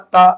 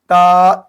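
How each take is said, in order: First: The letter name is said short and clipped. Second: The letter name is drawn out a little longer. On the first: The speaker calls it wrong. "ऐसे नहीं कहेंगे" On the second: The speaker calls it right. "थोड़ा खींच के"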